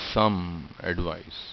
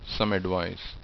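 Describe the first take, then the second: First: The words separate with the sound said twice. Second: The words blend with the sound said once. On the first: The speaker calls it wrong. "I'm not pronouncing the same sound twice" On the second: The speaker calls it right. "flowing naturally into each other"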